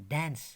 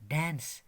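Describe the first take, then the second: The two takes are said the same way.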